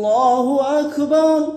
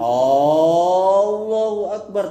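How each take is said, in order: First: Neither word's opening vowel is drawn out. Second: The opening vowel of Allahu is drawn out. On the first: It states that God is the greatest. The speaker calls it right. "dengan tidak memanjangkan" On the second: It turns into a question about God. The speaker calls it wrong. "dengan memanjangkan hamzah pada lafaz Allah"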